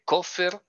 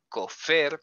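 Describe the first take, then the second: First: The stress is on the first syllable. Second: The stress is on the last syllable. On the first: A ransom payment or guarantee. "kofer es el pago" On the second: A heretic. "kofer con tilde en la E es otra cosa totalmente diferente"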